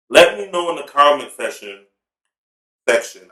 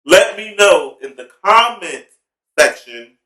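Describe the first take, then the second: First: Talking through a mouthful of crab sticks; words muffled by a mouthful of food; mouth full. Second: "section" said slowly and clearly, raised, the "k" in "section" crisp; slow clear re-say of "comment section", stressing "section"; careful repeat. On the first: Real, not acted. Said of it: "I got a mouthful of crab sticks". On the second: Shown as a demonstration. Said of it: "I said session".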